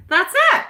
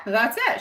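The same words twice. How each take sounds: First: High, loud burst of recognition; excited outburst. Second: Said in the usual way. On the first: Real, not acted. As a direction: blurt it out, delighted. Reacting to a chat comment.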